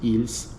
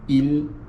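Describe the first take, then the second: First: The word ends with an audible S sound. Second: The word ends without an S sound. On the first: The speaker calls it wrong. "I'm not going to say ils" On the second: The speaker calls it right. "we don't pronounce the S"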